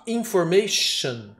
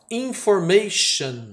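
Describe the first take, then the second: First: Information said slowly again, ending like chão; model word repeated. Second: Slow, careful Information, stress on ma; slow model word. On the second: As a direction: model Information slowly for students. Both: Shown as a demonstration. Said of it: "Olha que moleza".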